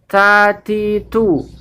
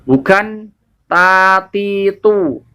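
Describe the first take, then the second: First: The t is said with a puff of air. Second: The t is said without a puff of air. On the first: The speaker calls it right. "wajib dibaca dengan hamas atau hembusan angin" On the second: The speaker calls it wrong. "karena tidak ada hembusan anginnya"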